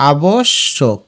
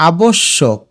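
First: আবশ্যক slowly as a-bosh, shok; split in syllables. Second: Said in the usual way. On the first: Shown as a demonstration. Teacher showing students, আবশ্যক slowly split a-bosh-shok. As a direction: pause on the double sh of আবশ্যক. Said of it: "এই যে দেখো". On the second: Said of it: "এটা সঠিক উচ্চারণ".

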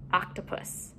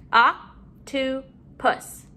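First: Said in the usual way. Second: "Octopus" slowly, in three beats; syllable by syllable. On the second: Shown as a demonstration. Teacher modeling syllables to put together, broken up. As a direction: pause after each syllable of "Octopus". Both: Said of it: "let's put our syllables together".

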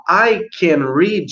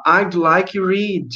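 First: "I can read" drawn out slowly as the mistaken form; slow wrong-form example. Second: "I'd like read" spoken slowly and clearly; teacher models the polite request slowly. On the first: Teacher warns pupils against the wrong form, said slowly. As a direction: slowly model what not to say. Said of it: "Porque se você falar". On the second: Teacher shows pupils how to ask politely, said slowly. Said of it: "aí você pode falar". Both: Shown as a demonstration.

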